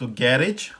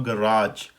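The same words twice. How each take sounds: First: गैरेज as GAR-ij, slow, stressed first syllable; British pronunciation. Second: गैराज as guh-RAAJ, slow, long second syllable; American pronunciation. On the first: Teacher compares both garages side by side, British pronunciation. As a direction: say गैरेज slowly, short ending. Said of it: "British में हो गया". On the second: Teacher compares both garages side by side, American pronunciation. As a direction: say गैराज slowly with stressed RAAJ. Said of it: "American में हो गया". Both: Shown as a demonstration.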